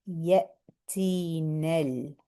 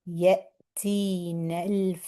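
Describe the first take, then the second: Both takes have the same delivery.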